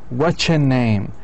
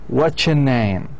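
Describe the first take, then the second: Both takes have the same delivery.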